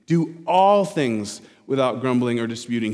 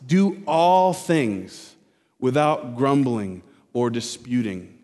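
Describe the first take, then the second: First: Said in the usual way. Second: Each word weighed out slowly; slow, deliberate scripture emphasis; slow emphatic verse. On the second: Shown as a demonstration. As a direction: lean on every word of the command. Preacher slowly stressing the command.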